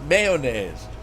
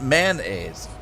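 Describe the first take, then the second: First: The first syllable sounds like 'may'. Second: The first syllable sounds like 'man'. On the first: The speaker calls it right. "It's mayonnaise" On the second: The speaker calls it wrong. "it's not spelled M A N mayonnaise"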